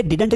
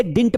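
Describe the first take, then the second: First: Didn't in two syllables, DID-unt; wrong pronunciation. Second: Didn't squeezed into one syllable, DINT; correct pronunciation. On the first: Teacher corrects his old habit, didn't said DID-unt. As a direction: sound a second d and vowel in didn't. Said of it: "इसे didn't नहीं पढ़ा जाता". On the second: Teacher shows the improved way, didn't said DINT. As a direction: drop the middle d of didn't, say DINT. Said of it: "इसे didn't पढ़ा जाता है". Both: Shown as a demonstration.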